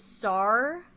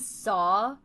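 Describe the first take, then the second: First: The word is said with a Liverpool 'ar' vowel. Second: The word is said with a standard vowel. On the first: "he says sar" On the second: "instead of saying saw"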